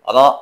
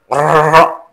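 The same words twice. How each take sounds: First: The r is trilled lightly with slight vibration. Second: The r is trilled strongly with many vibrations. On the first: The speaker calls it right. "ada getaran sedikit" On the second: The speaker calls it wrong. "Tapi jangan berlebihan. Jangan ro, jangan begitu"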